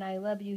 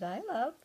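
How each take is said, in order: First: Said in the usual way. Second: A light hint of the parrot, I love without the you; parrot mimicry. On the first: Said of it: "Instead of saying". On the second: Owner copying how her parrot says it, light bird voice. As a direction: mimic the bird's clipped I love. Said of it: "he says".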